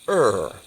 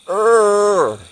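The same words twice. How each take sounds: First: The sound is short and at normal volume. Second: The sound is held out longer. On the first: "your sound is just a er" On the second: "You learn to do it longer"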